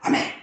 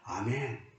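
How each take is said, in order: First: It is shouted at the top of the voice. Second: It is said softly and sincerely.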